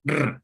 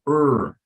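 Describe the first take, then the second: First: The R is trilled with a vibrating tongue. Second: The R is smooth with no vibration. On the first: The speaker calls it wrong. "it's not like a vibrating R like in Spanish. So, you don't say" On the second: The speaker calls it right. "in American English, va a sonar así la R"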